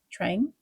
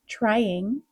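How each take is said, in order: First: The -ing ending is softer and less stressed. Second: The -ing ending is full and clear.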